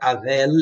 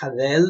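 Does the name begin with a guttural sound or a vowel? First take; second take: vowel; guttural. First: The name begins directly with a vowel. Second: The name begins with a guttural throat sound. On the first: The speaker calls it wrong. "eles não pronunciam Avel" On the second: The speaker calls it right. "eles pronunciam Havel, né, ter essa coisa gutural"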